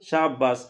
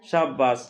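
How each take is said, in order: First: The two words run together quickly into one. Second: The two words run together quickly into one.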